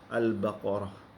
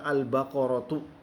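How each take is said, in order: First: The word ends with a soft h sound. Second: The word ends with a t sound and vowel. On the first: The reader stops on this word. "karena kita wakaf, kita menyebutkan al-baqarah" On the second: The word is read in full without stopping. "sebenarnya ditulisnya adalah al-baqaratu"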